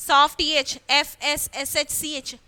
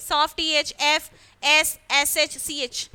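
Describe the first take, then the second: No difference in how they are said.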